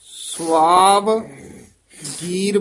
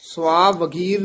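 First: There is a short break after the first part. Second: The word is said joined without a break. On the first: The speaker calls it right. "ਸਵਾਵ ਗੀਰ ਬੋਲਣਾ ਹੈ" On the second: The speaker calls it wrong. "ਸਵਾਵਗੀਰ ਨਹੀਂ ਕਹਿਣਾ"

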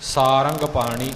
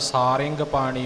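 First: The vowel after the r is a short a. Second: The vowel after the r is a short i. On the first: "ਇੱਥੇ ਸਿਹਾਰੀ ਨਹੀਂ ਸਾਰੰਗ ਪਾਣੀ ਇਸੇ ਤਰ੍ਹਾਂ ਉਚਾਰਨ ਕਰਨਾ ਹੈ" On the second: "ਰਾਰੇ ਨੂੰ ਸਿਹਾਰੀ ਦੇ ਨਾਲ ਸਾਰਿੰਗ ਪਾਣੀ ਵੀ ਆਉਂਦਾ ਹੈ"

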